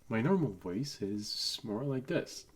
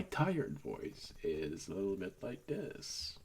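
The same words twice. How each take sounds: First: Said in the usual way. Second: A little lower and softer, tired. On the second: Shown as a demonstration. Showing viewers his tired voice, low and sleepy. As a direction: let the voice sink low and drowsy. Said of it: "My tired voice is a little bit like this".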